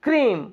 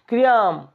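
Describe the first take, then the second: First: The vowel is one long ee sound. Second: The vowel splits into ee then ah. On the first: The speaker calls it right. "First वाला बोला जाएगा लंबा करके, second वाला silent हो जाएगा" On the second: The speaker calls it wrong. "क्रियाम नहीं"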